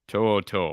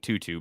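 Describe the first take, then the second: First: The name is said like 'To-o To-o'. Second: The name is said like 'Tutu'. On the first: The speaker calls it right. "How do you pronounce his last name?" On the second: The speaker calls it wrong. "I call him Tutu, but it's not pronounced that way"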